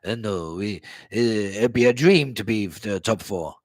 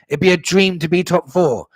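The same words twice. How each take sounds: First: Lightly voiced low, hesitant manager; a hesitant, lower quote, lightly put on; Conte. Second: Louder, higher mock echo; mocking repeat. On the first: Fan quoting Conte on top four, lightly mimicked hesitancy. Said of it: "how many times did he say". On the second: Fan throwing Conte's words back at him, mocking. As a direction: throw the quote back, loud and scornful.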